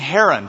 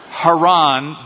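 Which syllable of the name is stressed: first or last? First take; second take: first; last. First: The stress is on the first syllable. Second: The stress is on the last syllable. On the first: It names the person. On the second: It names the place.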